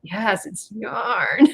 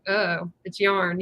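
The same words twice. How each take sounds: First: Very slow, each word leaned on, "yarn" rising proudly; emphatic. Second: Slow, flat-toned dismissal of "yarn"; dismissive. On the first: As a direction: insist "Yes, it's yarn" slowly with a rising "yarn". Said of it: "And I'm like". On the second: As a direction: say "it's yarn" like it's nothing, slowly. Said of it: "they're just like". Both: Retold or imitated.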